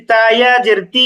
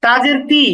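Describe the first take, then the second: First: Final "তি" stretched out; madd elongation. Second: Said in the usual way. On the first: Shown as a demonstration. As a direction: hold the vowel of "তি" long. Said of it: "একটু টেনে উচ্চারণ করছি". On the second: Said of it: "হরকতের উচ্চারণ তাড়াতাড়ি করতে হয়".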